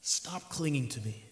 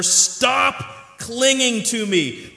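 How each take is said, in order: First: Much softer, quiet and calm; gentle rebuke. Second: Loud, slow and emphatic, drawn out; firm command. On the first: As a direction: say it softly, almost to her alone. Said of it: "the Lord makes this comment". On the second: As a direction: declare it strongly, stretching each word. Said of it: "Jesus said to her". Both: Acted.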